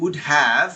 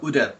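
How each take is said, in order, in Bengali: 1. Have পুরোপুরি h ধ্বনিসহ উচ্চারিত হয়। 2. Have সংক্ষিপ্ত ও যুক্ত হয়ে h ছাড়া উচ্চারিত হয়।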